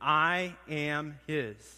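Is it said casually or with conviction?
casually. It is said casually, without much feeling.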